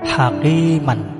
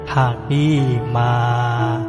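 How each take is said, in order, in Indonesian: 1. Kata "hakiman" berakhir dengan vokal pendek dan n. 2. Kata "hakiman" berakhir dengan vokal panjang, tanpa n. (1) "maka tanwin cukup dibaca pendek saja" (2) "kalau hakimannya ini jatuh waqaf atau berhenti, maka menjadi hakimah"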